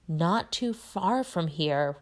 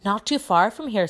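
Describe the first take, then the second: First: Slow, weighted echo; significant repeat. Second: Higher, louder, eager news; excited. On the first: Ron repeating the news pointedly to Harry, significant. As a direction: draw each word out meaningfully. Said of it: "looking significantly at Harry". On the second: Seamus sharing news of a sighting, excited. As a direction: blurt it out excitedly. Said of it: "who looked excited". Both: A narrator's reading.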